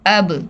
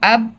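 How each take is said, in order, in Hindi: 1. अंतिम b हल्की गूँज के साथ उछलती है। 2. अंतिम b एकदम रुक जाती है, कोई गूँज नहीं होती। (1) "अब में आवाज़ रुकी नहीं है, वापस पलट कर आई है" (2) "ये आवाज़ रुक गई, मखरज में रुक गई आवाज़"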